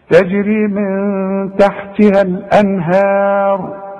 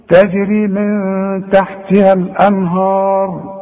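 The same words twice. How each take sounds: First: Slow تجري من تحتها الأنهار with a light هاء and a heavy راء; correct recitation. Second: Sung تجري من تحتها الأنهار with الأنهار said lanhar, hamza dropped; wrong recitation. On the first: Teacher modelling the correct reading, slow and measured. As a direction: recite slowly with the correct tajweed. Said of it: "شوف، الأنهار". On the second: Teacher mimicking a student's mistake, sing-song wrong reading. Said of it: "غلط يا سيدي". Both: Shown as a demonstration.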